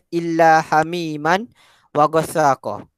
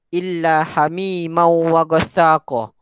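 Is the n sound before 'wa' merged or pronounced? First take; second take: pronounced; merged. First: A clear n sound is heard before wa. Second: The n sound merges into the following w. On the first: This follows the written spelling. "Dalam Al-Quran dia tulis" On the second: This follows the proper recitation rule. "dalam kaedah pembacaan yang betul dia dibaca sebagai"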